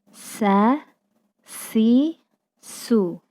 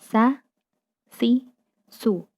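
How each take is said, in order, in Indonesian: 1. Bunyi s diucapkan dengan desisan yang jelas. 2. Bunyi s diucapkan tanpa desisan. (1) "pastikan ada suara desisan yang menyertai" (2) "Kita tidak mengucapkan dengan sa, si, su. Enggak seperti itu"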